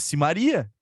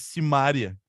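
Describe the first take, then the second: First: The stress falls on the syllable 'ri'. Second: The stress falls on the syllable 'ma'. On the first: The speaker calls it right. "Se tu fala Maria, aqui tu fala Simaria" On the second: The speaker calls it wrong. "por que diabos a dupla é Simone e Simária, se não tem acento?"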